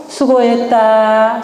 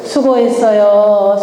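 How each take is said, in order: First: Slow, drawn-out 수고했다; slow demo. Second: Slow demo. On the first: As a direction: say 수고했다 slowly, syllable by syllable. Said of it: "마음을 알아주는 거 뭐라고요?". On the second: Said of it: "자, 수는 뭐라고요?". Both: Shown as a demonstration.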